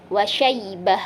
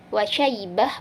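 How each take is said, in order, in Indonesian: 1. Vokal di dekat akhir tetap dibaca pendek. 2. Vokal di dekat akhir tetap dibaca pendek.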